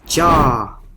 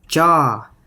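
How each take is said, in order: Both takes have the same delivery.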